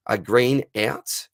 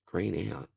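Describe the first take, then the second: First: Slow, puzzled first read of the question. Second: Much softer, mumbled to himself; baffled mutter. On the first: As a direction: lettura lenta e perplessa. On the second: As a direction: borbottio confuso, a voce molto bassa. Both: Real, not acted. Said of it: "what the Green out is".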